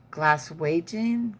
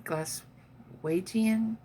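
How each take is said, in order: First: Said in the usual way. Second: Glaswegian stretched very slowly and pitched higher; drawn-out Glaswegian. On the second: Shown as a demonstration. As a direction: savour each sound of Glaswegian.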